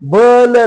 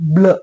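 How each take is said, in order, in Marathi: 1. b आणि l यांच्यामध्ये एक छोटा स्वर येतो. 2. b आणि l कोणत्याही स्वराशिवाय जोडले जातात. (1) "बल नाही" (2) "उच्चार आपल्याला शॉर्ट करा"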